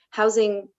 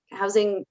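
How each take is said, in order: Both takes have the same delivery.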